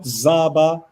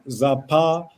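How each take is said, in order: First: It starts with z and has a b. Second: It starts with z and has a p. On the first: "not Zaba" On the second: "or not Zapa"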